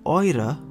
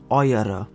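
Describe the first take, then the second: First: The word is said with two syllables. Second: The word is said with three syllables. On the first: The speaker calls it right. "it is pronounced eure" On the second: The speaker calls it wrong. "and not eure ... it has three syllables"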